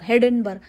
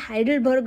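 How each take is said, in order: First: The first syllable sounds like 'hay', with 'den'. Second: The first syllable sounds like 'high', with 'del'. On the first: The speaker calls it wrong. "हेडेनबर्ग काय असतं?" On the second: The speaker calls it right. "अरे ते हायडेलबर्ग असतं"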